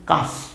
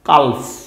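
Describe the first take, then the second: First: The L sound is left out of the word. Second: The L sound is pronounced in the word. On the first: The speaker calls it right. "কাফ উচ্চারণ কি হবে?" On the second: The speaker calls it wrong. "কিন্তু কালফ না"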